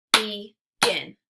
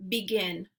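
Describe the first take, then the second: First: Clapped-out syllables. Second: Said in the usual way. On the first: Shown as a demonstration. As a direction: Begin as loud "be... gin". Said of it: "clap it out into syllables". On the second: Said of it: "only gonna say the word".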